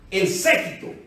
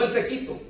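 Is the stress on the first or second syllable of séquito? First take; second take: first; second. First: The stress falls on the first syllable. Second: The stress falls on the second syllable. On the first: A group of people who follow and attend someone. The speaker calls it right. "con acento en la E" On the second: A person who is very thin. The speaker calls it wrong. "No el séquito"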